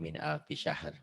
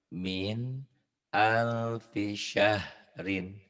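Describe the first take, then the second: First: The last word ends cut short after r. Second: The last word ends with an -in sound. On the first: The reading stops at this word. "Dihentikan jadi" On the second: The reading carries on without stopping. "dibaca apa adanya"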